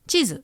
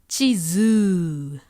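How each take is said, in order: First: No vowel is lengthened; both are short. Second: The last vowel is lengthened, not the first. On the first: "No long vowel mark, so it sounds short" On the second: "It's stretching the wrong vowel sound"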